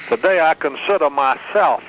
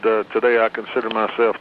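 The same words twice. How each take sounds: First: It is said in a New York accent. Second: It is said in a neutral, plain accent. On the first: "Lou had the New York accent" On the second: "he didn't hardly say it like that"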